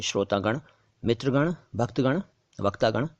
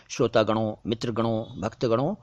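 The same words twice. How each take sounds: First: Each of श्रोतागण, मित्रगण, भक्तगण, वक्तागण without final o; correct bare ending. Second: गणों with a nasal -on ending; mistaken plural ending. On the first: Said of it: "आपको बोलना चाहिए". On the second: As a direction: add nasal o to each गणों. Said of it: "वो गणों बोलते हैं". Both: Shown as a demonstration.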